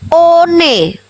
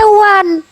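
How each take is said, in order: First: It is read letter by letter, starting with O. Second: It is said like 'wun', starting with W. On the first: The reading matches the written letters. "Kalau jujur itu sesuai dengan yang tertulis" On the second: The reading differs from the written letters. "Dibaca one"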